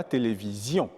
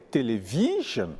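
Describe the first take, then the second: First: French "télévision", weight on "zion"; accent final français. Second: English "television" stressed on "vi"; "télévision" ending in a weak "zhun" after long "vi"; accent anglais sur l'avant-dernière. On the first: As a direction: stress the last syllable of "télévision". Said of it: "contrairement au français où on dira". (« télévision » à la française, finale accentuée) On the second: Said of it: "c'est généralement l'avant-dernière syllabe". (« télévision » à l'anglaise, « vi » accentué) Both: Shown as a demonstration.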